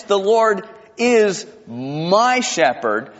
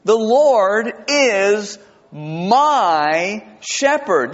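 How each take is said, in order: First: "is" leaned on in "The Lord is my shepherd"; stress on is. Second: Very slow, drawn-out, reverent reading; reverent recitation. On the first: Pastor stressing "is" in the verse for present tense. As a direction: press "is" to make it present tense. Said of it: "this is all present tense". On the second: Pastor reciting Psalm twenty-three slowly to the congregation. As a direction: savour each word of the verse. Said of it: "You know how it starts". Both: Shown as a demonstration.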